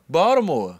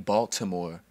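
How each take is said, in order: First: The middle consonant is a D sound. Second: The middle consonant is a clear T sound. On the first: This is how a local says it. "there's no T in Baltimore. It's a D" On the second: This is how other people say it. "people say Baltimore"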